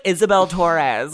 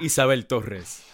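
First: "Isabel Torres" said the English way, laughing; English pronunciation. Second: "Isabel Torres" in Spanish, rolled R in "Torres"; Spanish pronunciation. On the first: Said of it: "we gotta be like Isabel Torres". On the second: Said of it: "Roll that R". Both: Shown as a demonstration.

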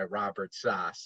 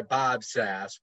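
First: "Sass" said as "sahss"; German pronunciation. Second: "Sass" rhyming with "mass"; American pronunciation. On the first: Guest giving his heathen and accountant name, German "Sass" as "sahss". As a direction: give "Sass" an open German ah. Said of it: "as a heathen and a, a corporate accountant". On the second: Guest giving his musician name, American "Sass" rhyming with "mass". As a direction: say "Sass" with the short a of "cat". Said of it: "as a musician I go by". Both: Shown as a demonstration.

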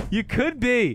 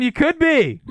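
First: Said in the usual way. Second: High, loud teasing call; excited. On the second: Real, not acted. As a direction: sing it out to tease him. Teasing singsong hype.

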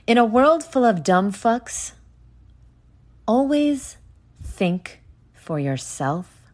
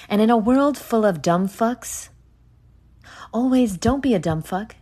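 First: Mock trailer retake. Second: Mock movie trailer voice. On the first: Podcaster retrying the trailer line for listeners, hammed-up trailer voice. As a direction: try the epic trailer line again, bigger this time. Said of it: "Let me try that again". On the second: Podcaster hamming up a trailer line for listeners, mock trailer voice. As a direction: sell it like an epic film trailer, half joking. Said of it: "No, that doesn't sound good".

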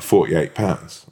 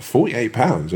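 First: Said in the usual way. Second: Higher, disbelieving repeat of the price; incredulous echo. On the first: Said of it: "And the woman's like". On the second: Retold or imitated. Customer to woman at the counter about the bill, incredulous. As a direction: throw the price back in disbelief. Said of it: "What the fuck?".

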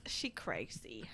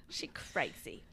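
First: Whispered aside; breathy whisper, low. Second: Whispered again; hushed repeat. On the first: Whispered aside about Mom. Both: Real, not acted.

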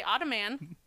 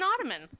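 First: Ottoman as "otto-MAN", full short a; wrong full MAN ending. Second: Ottoman as "OTTO-mun"; reduced last syllable. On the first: Host shows what nobody says, ottoman with full "man". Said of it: "you don't say ottoman". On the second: Host corrects to the usual form, ottoman with unstressed "mun". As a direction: let ottoman end in a weak "mun". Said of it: "It's an ottoman". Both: Shown as a demonstration.

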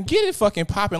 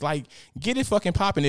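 First: Louder, higher push on get; loud urging. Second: Said in the usual way. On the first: Real, not acted. To Justin in chat, loud urging command. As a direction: bark the order at the crowd.

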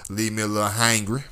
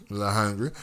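First: Hangry, said with a nasal ang; a little hangry, blending hungry and angry. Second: Said in the usual way. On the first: Shown as a demonstration.

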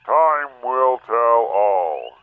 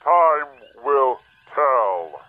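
First: Slow, drawn-out pronouncement; slow ominous. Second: Very slow, drawn-out warning; slow ominous. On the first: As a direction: weigh every word slowly. Mysterious voice's solemn pronouncement. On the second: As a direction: stretch each word out slowly. Oz repeats after shouting silence. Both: Acted.

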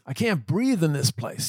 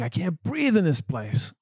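First: Higher, slowed retold yell; half-acted complaint, higher and slow; mock grumpy yell. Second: Higher, slowed mock yell of a grumpy old man; hammed-up angry patient, higher and slow; mock grumpy scream. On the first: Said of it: "he started screaming at me". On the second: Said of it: "still screaming at me at the top of his lungs".

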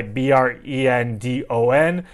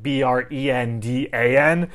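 First: B R E N D O N, each letter named separately, stressing the O; spelling it out. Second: B R E N D A N, each letter named separately; spelling it out. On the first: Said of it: "there's a guy". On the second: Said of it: "my first name is spelled". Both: Shown as a demonstration.

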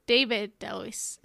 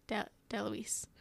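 First: Said in the usual way. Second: "DeLuise" whispered, stumbling on De-; quietly retry the name "DeLuise". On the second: Shown as a demonstration. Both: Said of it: "Sorry for the butchering of the last names".

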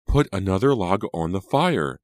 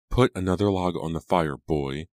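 First: Higher, louder impatient command; impatient order. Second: Put-on imperious old lady, raised voice; commanding old woman. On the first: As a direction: demand it impatiently. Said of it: "Angelica ordered impatiently". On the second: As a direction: order him like a cold matriarch. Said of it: "Angelica ordered". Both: A narrator's reading.

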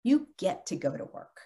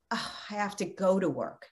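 First: "get" lifted and leaned on as a gift; upbeat emphasis on "get"; stress on get. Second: Mock grudging sigh of "have to go to work"; a soft, dragging, put-upon "Oh, I have to go to work"; lightly acted reluctant moan; grudging complaint. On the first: Shown as a demonstration. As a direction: hit the word "get" with gratitude. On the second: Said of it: "Instead of saying".

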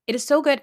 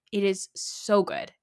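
First: Higher and louder, "so" stretched up; gushing excited. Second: Said in the usual way. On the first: Real, not acted. Podcaster to listeners, about a reality show she loves, gushing excitedly. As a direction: burst out with delight on "so". Repeats line, second much louder.

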